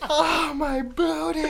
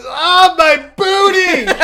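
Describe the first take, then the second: First: High, slow retold wail, held back; quoting through laughter. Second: Very high, loud wail, slowing at the end; imitated child's scream. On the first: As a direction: repeat the kid's wail while fighting giggles. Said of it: "I'm still, like, not able". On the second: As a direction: shriek like a hurt kid, laughing as you tell it. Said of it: "screaming, and goes".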